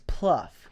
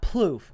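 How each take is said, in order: First: The name rhymes with hoof. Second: The name rhymes with loop. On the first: The speaker calls it right. "it's Pluff. It's like hoof" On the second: The speaker calls it wrong. "It's not Plouffe, It's not like loop"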